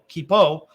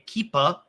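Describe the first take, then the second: First: The word ends in an 'oh' vowel. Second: The word ends in an 'ah' vowel. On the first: "K E E P O" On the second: "like as in K E E P A"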